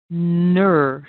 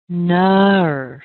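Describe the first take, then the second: First: The vowel is a steady er sound. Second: The vowel shifts as the jaw opens. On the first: The speaker calls it right. "the correct version would be" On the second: The speaker calls it wrong.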